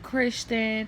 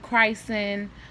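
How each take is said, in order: First: The name ends with a 'chun' syllable. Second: The name ends with a short 'sen' syllable. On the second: "or they call him Christen"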